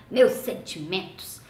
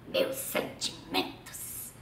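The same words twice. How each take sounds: First: Slow voiced "Meus sentimentos", a touch of mockery; mock condolences. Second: Whispered, slow mock condolence. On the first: Dad repeating his joke about the friend dying, slow. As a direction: say "Meus sentimentos" slowly with a hint of irony. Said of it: "Ele falava". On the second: Dad mocking his wife's friend's future funeral, whispered. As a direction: breathe "Meus sentimentos" in a hushed, drawn-out voice. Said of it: "Papai falava assim".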